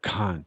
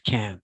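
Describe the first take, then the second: First: It is said in a British accent. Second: It is said in an American accent. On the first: "people from the U K, they say can't. Remember" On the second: "it's easier to pronounce American, guys"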